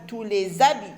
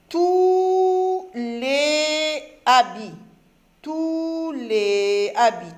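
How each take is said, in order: First: "tous les habits" with a clear z linking "les" and "habits"; liaison shown. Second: Very slow, syllable-by-syllable reading; slow reading aloud to children; read slowly. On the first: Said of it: "On fait la liaison du S avec le A". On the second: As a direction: stretch each word for young readers. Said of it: "je vais reprendre maintenant plus doucement". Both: Shown as a demonstration.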